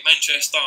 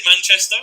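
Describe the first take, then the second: First: Manchester accent. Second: Said in the usual way. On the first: Shown as a demonstration. Showing how locals would say their city, Manchester accent. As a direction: imitate Manchester locals, stretching the last vowel of "Manchester". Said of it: "Manchester's kinda like this". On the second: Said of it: "if they said Manchester".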